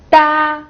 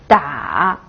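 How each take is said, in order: First: The pitch stays high and level. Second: The pitch dips low, then rises.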